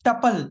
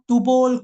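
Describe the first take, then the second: First: The first syllable has a short uh vowel. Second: The second syllable has an o vowel. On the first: The speaker calls it right. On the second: The speaker calls it wrong.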